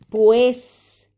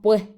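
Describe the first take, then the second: First: The final s is fully pronounced. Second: The final s is aspirated like a soft h. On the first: "en vez de decir pues" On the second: "decimos pues"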